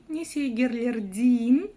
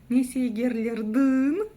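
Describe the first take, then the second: First: The last vowel is a front 'ee' sound. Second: The last vowel is a back 'y' sound. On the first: "Через «и». ... Тоже неудобно" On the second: "Прям попробуйте через «ы». ... Неудобно"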